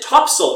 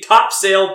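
First: The second syllable is reduced, not a full 'sail'. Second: The second syllable is a full, clear 'sail'. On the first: This is how people actually say the name. "no one calls it a sailboat. So why is it topsail?" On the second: This matches how the name is spelled. "It should be Topsail Beach"

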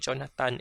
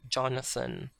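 First: The last syllable is pronounced 'tan'. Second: The last syllable is pronounced 'thun'. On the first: This is how Bisaya speakers say it. "we say Jonathan" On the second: This is how Bisaya speakers do not say it. "instead of Jonathan"

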